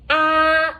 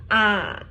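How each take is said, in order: First: The pitch stays high and level. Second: The pitch dips down and then rises. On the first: "that is the first one. It didn't change anything" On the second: "See, go down, go up"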